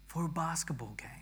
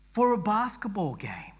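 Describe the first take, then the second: First: Unvoiced whispered echo. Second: Raised for emphasis. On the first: Echoing his own line to the church as a whisper. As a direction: drop it to a breathy whisper. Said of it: "repeats it whispered". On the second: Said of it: "repeats the phrase for effect". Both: Shown as a demonstration.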